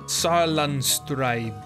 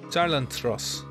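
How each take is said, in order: First: The last part is said with a b sound. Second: The last part is said with an s sound. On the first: The speaker calls it wrong. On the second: The speaker calls it right.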